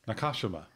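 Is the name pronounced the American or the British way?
British. The name is said the British way. "They pronounce it Nakashima"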